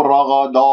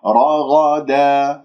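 First: رغدا with a thick, darkened final daa; wrongly heavy dal. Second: رغدا slowly, heavy r and gh but a light thin da; light dal. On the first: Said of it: "لا تفخم الدال بسبب مجاورتها للغين والراء". (تفخيم الدال خطأً في رغدا) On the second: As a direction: keep the final da of رغدا light. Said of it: "لا تفخم الدال". (ترقيق الدال في رغدا) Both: Shown as a demonstration.

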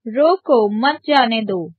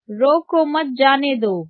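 First: रोको set apart, then मत जाने दो as one phrase; pause after रोको. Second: रोको मत run together, then जाने दो; pause after मत. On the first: Teacher demonstrating the comma's place, pause after रोको. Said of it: "अल्प विराम रोको के बाद लगा है". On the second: Teacher showing the changed meaning, pause after रोको मत. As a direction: join मत to रोको, break before जाने दो. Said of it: "अल्प विराम रोको मत के बाद लगा है". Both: Shown as a demonstration.

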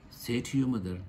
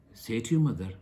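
No difference in how they are said.

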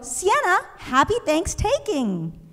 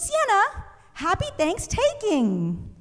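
First: Higher chirpy classmate greeting; eager classmate. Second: High, slow chirpy classmate greeting; eager classmate. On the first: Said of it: "she was gonna go". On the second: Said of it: "And she goes". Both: Retold or imitated. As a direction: sing it out like an eager girl.

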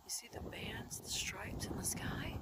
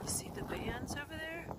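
First: Unvoiced whisper. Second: Much softer, hushed question; quiet. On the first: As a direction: whisper it like a secret. Whispering over sky footage. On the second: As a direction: point it out under your breath. Quiet filming of sky. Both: Real, not acted.

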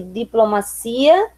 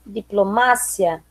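First: Said in the usual way. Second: "diplomácia" slowly, stressed on MA; Spanish stress. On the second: Shown as a demonstration. Teacher reading the list, "diplomácia" with Spanish stress on MA. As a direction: hit MA in "diplomácia", short "cia". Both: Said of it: "diferença entre as palavras heterotônicas".

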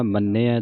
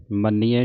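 First: ਮੰਨਿਆ said "man-nay-ai"; correct pronunciation. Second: ਮੰਨਿਆ said "man-ee-ai"; mispronunciation demo. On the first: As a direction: double "n", then "ay" and open "ai" in ਮੰਨਿਆ. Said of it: "ਮੰਨਿਆ ਦਲਾਵਾਂ ਦੇ ਨਾਲ". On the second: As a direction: put an "ee" in the middle of ਮੰਨਿਆ. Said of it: "ਮੰਨਿਆ ਨਹੀਂ ਕਹਿਣਾ". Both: Shown as a demonstration.

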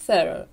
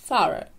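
First: Put-on thorough as THUR-uh, vowel of girl first; American pronunciation. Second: Thorough as THUH-ruh, short open first vowel; British pronunciation. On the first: Teacher compares the variants, American pronunciation. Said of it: "ще один варіант американської вимови". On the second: Teacher compares the variants, British pronunciation. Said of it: "І британське". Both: Shown as a demonstration.

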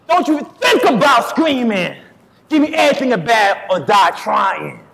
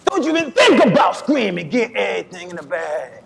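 First: Loud, high, forceful hold-up shout. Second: Imitated fellow suspect. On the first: Acted. Lineup suspect borrowing another man's reading, loud tough-guy robber impression. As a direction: bellow it like a rapper playing a robber. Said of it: "You ain't [name]". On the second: Suspect showing another man how he sounded, shouted then easing robber imitation. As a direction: copy another man's hold-up line, punched then easing off. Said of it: "not so much you. You were, uh".

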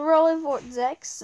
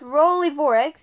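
First: Vortex said with a T, VOR-tex. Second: Vorex said with no T, VOR-ex; Vorex without T. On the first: Player trying the other name, Vortex said with a T. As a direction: put the T into Vortex. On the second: Player unsure of a name, Vorex said without a T. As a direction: drop the T in Vorex. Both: Shown as a demonstration. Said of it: "Is it Vorex or Vortex?".

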